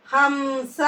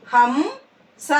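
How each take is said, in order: First: Said in the usual way. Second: "హంస" split, rising హం, then స; "హంస" in two separate syllables. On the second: Shown as a demonstration. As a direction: slowly sound out "హంస" with a gap. Teacher sounds out syllables.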